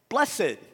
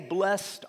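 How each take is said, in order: First: The word is said as two syllables. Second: The word is said as one syllable. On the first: It sounds more holy and religious. "we make it more religious sounding" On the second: It sounds like an everyday word. "we didn't say"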